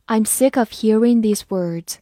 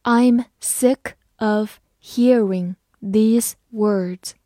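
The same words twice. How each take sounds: First: Said in the usual way. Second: Measured, separated words for learners; slow reading. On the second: Shown as a demonstration. Teacher reading an example sentence to learners, slowly word by word. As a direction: say each word on its own, slowly. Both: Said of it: "好，慢慢来读".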